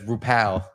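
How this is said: The name is said with English pronunciation. "But in English, that's"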